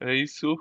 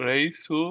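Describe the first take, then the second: No difference in how they are said.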